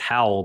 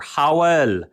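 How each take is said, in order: First: The name is said as one syllable. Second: The name is said as two syllables. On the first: "the way that you or I would say it" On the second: "I hear it at that Welsh accent"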